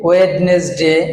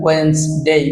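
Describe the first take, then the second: First: The middle d and e are pronounced. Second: The middle d and e are silent. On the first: The speaker calls it wrong. "অনেক শিক্ষিত লোকেরাও কিন্তু আমরা ওয়েডনেসডে বলি" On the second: The speaker calls it right. "Right pronunciation ওয়েন্সডে"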